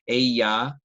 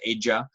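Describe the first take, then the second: First: The double L sounds like an English y. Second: The double L sounds like an English j. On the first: Speakers from some regions say it this way. "a Y sound, not an L sound" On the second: This is one personal way of saying it. "I tend to pronounce that with the J sound"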